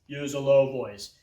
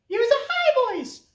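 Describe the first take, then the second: First: Dropped, low-pitched demo; playfully lowered pitch. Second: Very high squeaky demo; high-pitched playful voice. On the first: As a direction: sink down into a low voice. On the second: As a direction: jump right up to the top of your voice. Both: Shown as a demonstration.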